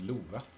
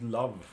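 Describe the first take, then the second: First: It is said with a Swedish pronunciation. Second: It sounds like the English word love.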